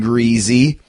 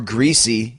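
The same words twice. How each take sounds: First: It is said the way old Canadians say it. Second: It is said the way most people say it.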